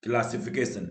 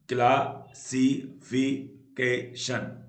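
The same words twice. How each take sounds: First: Said in the usual way. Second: classification very slow, in five separate beats; syllable by syllable. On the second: Shown as a demonstration. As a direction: clear gaps between the syllables of classification. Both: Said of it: "पांच syllable होते हैं".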